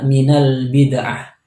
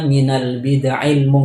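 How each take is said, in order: First: The phrase ends with an a vowel. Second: The phrase ends with an i vowel. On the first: The speaker calls it wrong. "dengan dibaca nasab ainnya" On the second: The speaker calls it right. "Yang benar itu dibaca"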